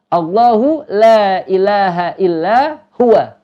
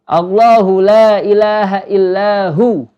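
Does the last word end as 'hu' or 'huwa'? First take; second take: huwa; hu. First: The last word is said in full as 'huwa'. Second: The last word is cut short to 'hu'. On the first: The reading continues without stopping. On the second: The reader stops at this point.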